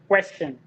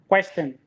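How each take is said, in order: No difference in how they are said.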